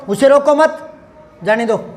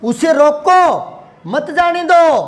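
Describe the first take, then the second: First: There is a pause after the word mat. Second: There is a pause after the word roko. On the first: Let the person go. "अब ये तीन एक साथ बोल लूंगा और ये दो एक साथ बोल लूंगा" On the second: Keep the person from leaving. "और यूं बोल लूं"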